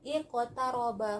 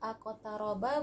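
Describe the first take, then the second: First: The word begins with an i vowel. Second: The word begins with an a vowel. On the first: The speaker calls it right. "hamzahnya kita bariskan kasroh" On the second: The speaker calls it wrong.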